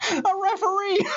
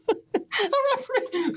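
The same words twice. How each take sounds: First: "A referee" blurted out high, with a laugh; laughing punchline. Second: "A referee" drawn out slowly and high; "A referee" repeated slow and high to savor the joke. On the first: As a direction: burst out the answer while cracking up. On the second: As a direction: stretch each syllable of "A referee" out. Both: Acted.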